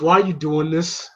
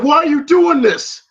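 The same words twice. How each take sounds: First: Said in the usual way. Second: Louder, higher mock demand; insistent demand. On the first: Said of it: "he goes". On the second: Rocky pressing Mickey for an answer, loud demand. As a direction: raise the voice, imitating a frustrated fighter. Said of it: "I said".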